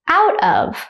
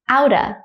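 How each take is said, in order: First: The word of is pronounced in full. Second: Of is reduced to a schwa sound.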